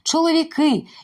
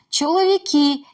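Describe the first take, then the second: First: The k is hard before the vowel. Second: The k is softened before the vowel. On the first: The speaker calls it right. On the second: The speaker calls it wrong.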